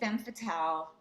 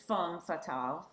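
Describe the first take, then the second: First: It is said with an American accent. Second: It is said with a French accent. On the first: "I say femme fatale" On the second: "if you're from France, it's femme fatale"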